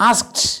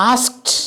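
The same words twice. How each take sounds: Both takes have the same delivery.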